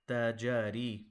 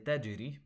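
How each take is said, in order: First: The j is followed by a short a vowel. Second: The j is bounced with no vowel after it. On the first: The speaker calls it wrong. "a mistake would be to call, instead of saying tajiri, you say tajari" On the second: The speaker calls it right. "a little bit of a bounce on the jim"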